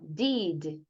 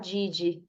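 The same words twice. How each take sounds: First: It is said with an English pronunciation. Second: It is said with a Brazilian Portuguese pronunciation. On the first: The speaker calls it right. "Fala assim, ó" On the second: The speaker calls it wrong. "brasileiro gosta de falar did"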